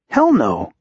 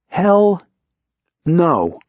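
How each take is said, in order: First: It is said at a normal pace. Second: It is said slowly with strong emphasis.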